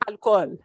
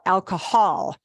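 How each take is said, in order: First: It is said with a Spanish pronunciation. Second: It is said with an English pronunciation. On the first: The speaker calls it right. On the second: The speaker calls it wrong. "I want to make sure you don't pronounce it as"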